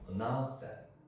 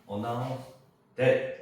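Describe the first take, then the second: First: The word 'that' is weak and barely audible. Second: The word 'that' is fully and clearly pronounced. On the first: The speaker calls it right. "있는 듯 없는 듯" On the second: The speaker calls it wrong. "이렇게 하면 안 돼요"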